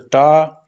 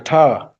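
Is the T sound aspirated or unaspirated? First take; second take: unaspirated; aspirated. First: The T is said without a puff of air. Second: The T is said with a puff of air. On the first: The speaker calls it wrong. "it's not pronounced as a ta" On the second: The speaker calls it right. "it's pronounced as a ta"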